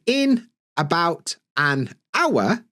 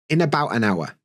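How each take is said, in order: First: Each word is said separately, without linking. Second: Consonants run into the following vowels, words linked. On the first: "instead of being" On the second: "what you'll end up with is"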